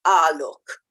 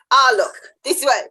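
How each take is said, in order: First: Low Australian drawl on "Ah, look"; lightly voiced Australian "Ah, look" said low and drawn out. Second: Louder, brighter Australian "Ah, look"; a punchier Australian "Ah, look", pushed out louder. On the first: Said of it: "she'll start everything with the word". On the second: Retold or imitated. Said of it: "it's very Australian".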